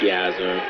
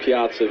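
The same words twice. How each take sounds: First: The name is said slowly, with vowels drawn out. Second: The name is said short, without drawing vowels out. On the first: "a lot of people would kind of drag out" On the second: "preferring Piazza"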